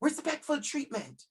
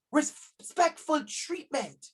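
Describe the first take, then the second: First: "Respectful treatment" repeated softer, falling gently; soft echo. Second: "Respectful treatment" drawn out slowly, each word weighted; slow emphatic repeat. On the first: Teacher echoes the key phrase to parents, softly. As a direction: let "Respectful treatment" sink in quietly. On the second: Teacher stresses the key phrase to parents, slowly. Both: Shown as a demonstration. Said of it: "It's simple that".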